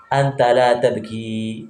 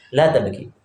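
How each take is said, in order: First: "tabki" with the final "i" drawn out; long final vowel. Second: Said in the usual way. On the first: Shown as a demonstration. Teacher explaining "you don't cry", long "i" ending "tabki". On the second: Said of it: "kalau kamu jangan nangis".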